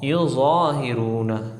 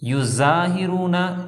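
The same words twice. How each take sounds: First: The z sound is full and thick. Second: The z sound is hard and thin. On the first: The speaker calls it right. "तो हमने पढ़ना है ज़ा" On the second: The speaker calls it wrong. "अगर ज़ा को पढ़ दिया ज़ा की जगह युज़ाहिरूना, ये भी गलत हो जाएगा"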